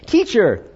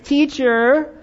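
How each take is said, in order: First: It is said in a plain voice. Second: It is said in a whiny voice.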